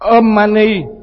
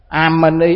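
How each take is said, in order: First: The first vowel is a rounded 'o' sound. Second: The first vowel is an open 'a' sound. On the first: The speaker calls it right. "Om Mani mà bắt đọc là" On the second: The speaker calls it wrong. "cái bà này bắt đọc sai"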